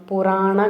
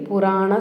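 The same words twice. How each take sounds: No difference in how they are said.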